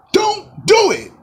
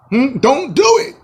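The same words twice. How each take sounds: First: Very high, slow, drawn-out warning. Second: High-pitched plea, rising at the end; high pleading. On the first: Warning Kevin Durant off the Nets, slow and very high. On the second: Pleading with Kevin Durant not to sign, high voice. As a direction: beg him in a high voice. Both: Pretend. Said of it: "pleading with Durant".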